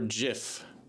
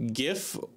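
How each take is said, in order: First: It begins with a soft G sound. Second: It begins with a hard G sound. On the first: It refers to the peanut butter. "peanut butter" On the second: It refers to the graphics format. "graphics interchange format"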